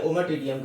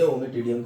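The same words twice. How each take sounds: First: ओमाटिडियम with an "uh" sound after the m; variant pronunciation. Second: ओमिटिडियम with an "ee" sound after the m; variant pronunciation. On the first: Teacher offers students either way of saying it, ओमाटिडियम with "ma". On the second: Teacher offers students the other way of saying it, ओमिटिडियम with "mi". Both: Shown as a demonstration. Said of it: "जो भी कहना है".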